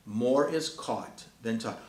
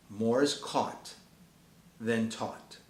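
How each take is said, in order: First: Repeated slowly, "More" leaning hardest; slow repeated maxim. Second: Each word weighed, slow; slow emphatic maxim. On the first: Preacher repeating the maxim to the parents, slow and firm. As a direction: say it again, pressing "More". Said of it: "repeated maxim". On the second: Preacher driving home his maxim, slow and weighty. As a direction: land the saying slowly. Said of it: "slow emphatic maxim". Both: Shown as a demonstration.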